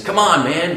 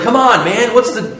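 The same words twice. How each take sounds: First: A light hint of Joe Biden saying "Come on, man"; Biden catchphrase. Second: Higher and louder "Come on, man"; exasperated plea. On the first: Quoting Biden's catchphrase, lightly imitated. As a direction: toss it off the way Biden does. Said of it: "Joe Biden keeps saying this". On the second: Retold or imitated. Older son protesting to his father, exasperated. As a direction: throw up your hands, exasperated. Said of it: "It's like".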